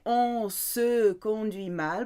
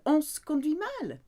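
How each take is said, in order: First: It is said slowly and carefully. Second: It is said quickly, run together.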